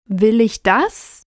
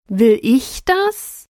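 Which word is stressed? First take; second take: das; ich. First: The stress is on the word 'das'. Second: The stress is on the word 'ich'.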